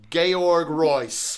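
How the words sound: The name is said with a German pronunciation. "as Chad refers to him ... the German pronunciation"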